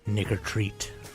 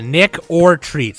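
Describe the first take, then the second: First: The first two words blur into one word. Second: Each word is pronounced clearly and separately. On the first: The speaker calls it wrong. "You got you got to enunciate that a little better" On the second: The speaker calls it right. "like trick or treat"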